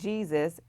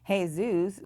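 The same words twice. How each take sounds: First: The name is said as it looks in English. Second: The name is said with Spanish pronunciation. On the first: "which would look like" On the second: "not pronounced like they're spelled"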